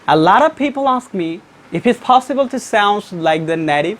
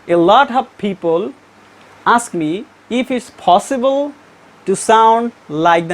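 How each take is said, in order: First: The sentence is spoken rapidly with words linked. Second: The sentence is spoken slowly, word by word. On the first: "how the native speakers pronounce very rapidly" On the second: "When a non-native speaker pronounce this sentence"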